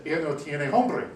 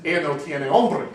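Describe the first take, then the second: First: "hambre" said with an a, "ahm-bre"; correct Spanish. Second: Louder mock Spanish with "hombre" said with an o, "ohm-bre"; mistaken Spanish. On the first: Shown as a demonstration. Speaker to waitress, "hambre" correctly with a. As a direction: say "hambre" meaning hunger, open a. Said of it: "In Spanish ... to say". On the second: Speaker to waitress, louder botched "hombre" with o. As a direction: blurt "hombre" instead of "hambre". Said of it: "the word for hunger is hombre".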